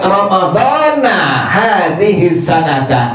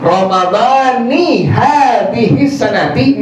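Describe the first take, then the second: First: Ramadan ends with an 'a' vowel. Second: Ramadan ends with an 'i' vowel. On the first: It is unclear which year's Ramadan is meant. The speaker calls it wrong. "kalau antum baca dengan kalimat Ramadana hadhihi sanata" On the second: The fast is for this year's Ramadan. The speaker calls it right. "kalimat tadi yang benar"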